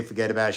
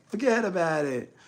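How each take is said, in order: First: Said in the usual way. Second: Put-on higher teasing New York accent; mocking New York accent. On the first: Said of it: "Like, I say". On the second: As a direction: imitate the ex imitating him. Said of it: "She, like".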